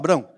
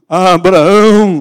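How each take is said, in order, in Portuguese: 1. O nome é dito com uma voz de fala comum. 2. O nome é dito com uma voz retumbante e ecoante. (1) "Não pode ser uma voz normal. Abraão, assim, não vale?" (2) "tem que ser uma voz que ecoe"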